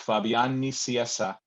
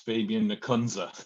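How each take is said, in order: First: The name is pronounced with Spanish sounds. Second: The name is pronounced with American sounds. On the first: "En español es" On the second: "in American, it's"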